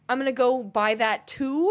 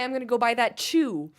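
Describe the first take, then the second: First: The last word starts with a plain t sound. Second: The last word starts with a ch sound. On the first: "We don't add a C H at the front" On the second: "We don't add a C H at the front"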